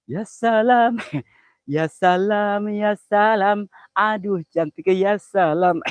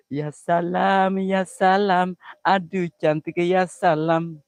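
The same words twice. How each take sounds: First: Higher, drawn-out ya salam; delighted ya salam. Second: Slow, drawn-out ya salam; delighted ya salam. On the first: Streamer swooning over a pretty girl, drawn-out delight. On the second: Streamer swooning again, a touch less high. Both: Acted. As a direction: savour each ya salam with delight.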